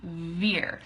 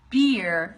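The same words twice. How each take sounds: First: "veer" opening on a buzzed V; lengthened V in "veer"; vibrating V. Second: "beer" with closed lips bursting open; firm, popped B in "beer"; plosive B. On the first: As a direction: let teeth buzz on lip for "veer". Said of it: "teeth vibrate against your bottom lip". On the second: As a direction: push the air out on the B of "beer". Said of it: "lips close and then you p-, push out". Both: Shown as a demonstration.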